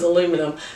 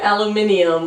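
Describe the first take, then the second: First: It is said with an American pronunciation. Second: It is said with a British pronunciation. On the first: "was aluminum" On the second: "I knew aluminium was"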